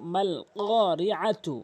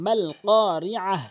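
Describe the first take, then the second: First: The word ends with a full 'tu' syllable. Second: The word ends with a soft 'h' sound. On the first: The reading continues without stopping. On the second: The reading stops at this word.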